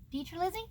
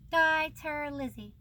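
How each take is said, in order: First: "Dieterlizzi" as "TEE-ter-lizzy", higher with a questioning rise; unsure retry. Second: "Dieterlizzi" said slowly as "DYE-ter-lizzy", falling tune; name read out. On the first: Second guess at the illustrator's name, doubtful rising retry. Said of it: "No sé". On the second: Naming the book's illustrator, careful first try at the name. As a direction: say "Dieterlizzi" deliberately, dropping at the end. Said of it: "Di-, Dieterlizzi?". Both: Shown as a demonstration.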